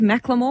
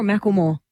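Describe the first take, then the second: First: a rapper's name as MACK-luh-more; first pronunciation. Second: the name as MACK-ul-more; alternative pronunciation. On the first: Host comparing two versions, the name said MACK-luh-more. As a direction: run the L into the middle syllable of the name. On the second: Host comparing two versions, the name said MACK-ul-more. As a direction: put the vowel before the L in the name. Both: Shown as a demonstration. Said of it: "Does he go with Macklemore or Macklemore".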